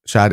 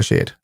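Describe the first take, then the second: First: "Shad", vowel as in "had"; short-vowel pronunciation. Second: "Shade", rhyming with "made"; long-vowel pronunciation. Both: Shown as a demonstration. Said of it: "is it Shad or Shade".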